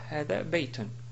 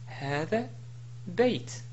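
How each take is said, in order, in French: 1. Le dernier mot se termine par un son 'un' plein. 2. Le dernier mot se termine brusquement sur le son 't'. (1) "et non pas" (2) "si je voulais m'arrêter sur baytun, je dis"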